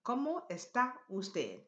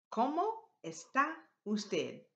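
First: Joined into one connected phrase; teacher's connected repeat; words put together. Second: Broken into separate words with clear pauses; teacher's spaced-out phrase. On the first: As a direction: model the whole question with shorter gaps. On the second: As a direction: model each word separately for learners. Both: Shown as a demonstration. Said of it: "Put that together".

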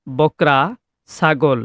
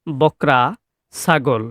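Both takes have the same delivery.

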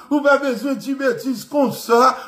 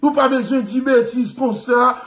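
First: Giggling half-mock French voice; laughing. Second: Wag a finger like a prissy Frenchman; a hint of a shocked French gentleman; mock proper French. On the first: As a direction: repeat the prim French scolding through a laugh. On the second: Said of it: "Vin propose ou te parler français".

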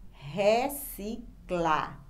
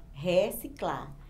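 First: "reciclar" very slowly as re, ci, clar; read with pauses. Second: Said in the usual way. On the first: Shown as a demonstration. Teacher asking for a paced reading, syllable by syllable. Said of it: "Leia agora pausadamente a palavra". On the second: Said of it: "aqui nós temos a palavra".

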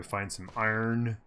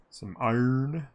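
First: Said in the usual way. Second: "iron" with Australian dropped r, drawn up; Aussie accent. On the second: Acted. Streamer hoping for iron, playful Australian accent.

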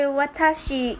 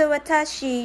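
First: Watashi said "wa-ta-shi" with a clear open a in each syllable; correct watashi. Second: Watashi said as "wuh-TAH-shee" with a lazy first vowel; mispronounced watashi. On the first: Correcting a friend who mangled watashi, clear and careful. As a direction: say watashi the Japanese way, every a clear. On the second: Friend mangling watashi before being corrected, first vowel swallowed. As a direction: stumble over watashi, weak first syllable. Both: Shown as a demonstration. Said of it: "You say watashi".

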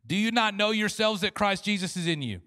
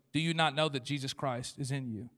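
First: Louder, higher proclamation; preaching scripture. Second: Real question. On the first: Acted. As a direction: proclaim the question. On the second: Shown as a demonstration. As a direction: ask it plainly, for real. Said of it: "that was not a rhetorical question".

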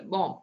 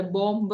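First: "ബോംബ്" said as bom, closing on the m; silent B. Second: "ബോംബ്" with an audible b after the m; sounded B. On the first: Teacher showing how we say it, silent B in "ബോംബ്". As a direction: leave the final b of "ബോംബ്" silent. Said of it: "അങ്ങനെയല്ലേ പറയുള്ളൂ". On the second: Teacher showing what we don't say, B sounded in "ബോംബ്". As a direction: wrongly voice the last b of "ബോംബ്". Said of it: "എന്ന് പറയില്ല". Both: Shown as a demonstration.

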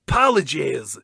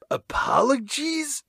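First: Said in the usual way. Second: Apologies? said higher and slow as an unsure guess; puzzled mispronunciation. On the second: Shown as a demonstration. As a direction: sound out Apologies? like a strange new word.

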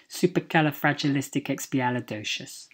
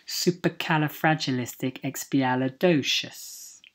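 First: "Supercalifragilisticexpialidocious" rattled off fast in one run; quick run-through. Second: "Supercalifragilisticexpialidocious" measured out carefully, syllables distinct; careful model pronunciation. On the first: Teacher repeating the fun word at speed, quick run-through. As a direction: say "Supercalifragilisticexpialidocious" briskly, syllables flowing together. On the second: Teacher modelling a fun word from Mary Poppins, careful and measured. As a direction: take your time over every syllable of "Supercalifragilisticexpialidocious". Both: Shown as a demonstration.

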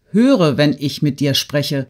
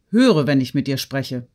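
First: HÖRE drawn out, louder at the start; insistent command. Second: Said in the usual way. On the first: A narrator's reading. Woman scolding the girl on the divan, insistent stress on Höre. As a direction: lean hard on Höre, slowing the order. Repeated order after touching Natalie.

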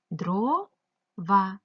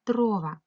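First: "Дрова" in two drawn-out syllables with a gap; split into syllables. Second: Said in the usual way. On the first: Shown as a demonstration. Teacher dividing a word into syllables, syllable by syllable. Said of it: "ділимо слово дрова на склади". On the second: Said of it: "поділити ці слова на склади".

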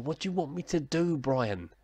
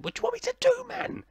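First: Higher-pitched, put-upon protest; exasperated appeal. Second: Very high, mock-desperate protest; exasperated squeal. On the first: Acted. Gamer answering Brian about his tactics, exasperated appeal. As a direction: plead helplessly with the critic. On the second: Gamer imagining his retort to Brian, exasperated high squeal.

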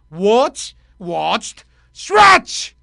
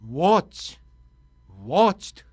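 First: A mock Ultraman cry as the past participle; hero-style pronunciation. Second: Said in the usual way. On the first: Shown as a demonstration. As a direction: fire off "watch, watched, シュワッチ" with a heroic shout. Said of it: "音をつけてやってみてください". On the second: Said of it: "発音をネイティブっぽくしたい場合は".

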